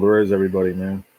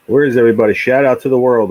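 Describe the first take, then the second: First: Said in the usual way. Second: Loud, higher call to the empty chat; shouting for viewers to show up. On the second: Real, not acted. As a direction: belt it out to the whole world. Calling out to live viewers.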